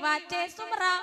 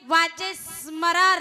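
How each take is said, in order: First: The words run together with an extra vowel. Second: The words are slightly broken apart and clear. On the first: The speaker calls it wrong. "म्हणतील जन्मोनिया कुळी वाचे सुमरा" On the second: The speaker calls it right. "थोडस खंडन करून पुढे clear करून"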